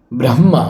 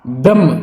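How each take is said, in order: First: ब्रह्मा with final aa, lower; long ending. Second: ब्रह्म clipped as "bramm"; short ending. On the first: Teacher showing students ब्रह्मा with long final aa. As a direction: say ब्रह्मा as "bram-maa". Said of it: "देखिए ये है". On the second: Teacher reading the word, ब्रह्म ending on m. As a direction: say ब्रह्म without final aa. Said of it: "लिखा हुआ है ब्रह्मा". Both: Shown as a demonstration.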